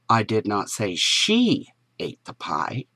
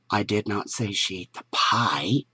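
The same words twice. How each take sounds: First: The stress is on the word she. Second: The stress is on the word pie.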